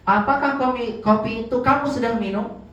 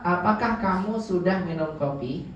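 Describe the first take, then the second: First: Apakah kopi pitched higher and a bit louder, with a rise on kamu; teacher showing the emphatic word order, pitched up and stressed; more emphatic. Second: Said in the usual way. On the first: Shown as a demonstration. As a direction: push the fronted kopi forward, insisting. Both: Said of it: "Nah, itu lebih tegas ya".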